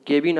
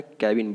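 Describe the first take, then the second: First: केबिन with an "ay" vowel: KAY-bin; wrong pronunciation. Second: केबिन with a short a: KAB-in; correct pronunciation. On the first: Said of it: "आपको नहीं बोलना है". (केबिन में ए की आवाज़) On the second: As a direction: say केबिन as "kae-bin". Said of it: "केबिन बोलना है". (केबिन को "कैबिन" बोलें) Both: Shown as a demonstration.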